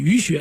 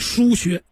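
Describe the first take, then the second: First: The first syllable is pronounced yu. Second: The first syllable is pronounced shu. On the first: The speaker calls it wrong. "有人偏念鱼穴" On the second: The speaker calls it right. "其实叫疏穴"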